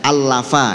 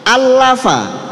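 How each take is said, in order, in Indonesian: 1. Huruf ganda itu hanya ditekan ringan. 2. Huruf ganda itu ditekan dengan kuat. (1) "tekanannya biasa saja" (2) "ada penekanan"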